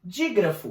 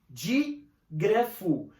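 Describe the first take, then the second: First: Said in the usual way. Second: Slow, stretched out. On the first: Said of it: "O que que é um dígrafo?". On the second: Shown as a demonstration. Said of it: "Di já vem de dois".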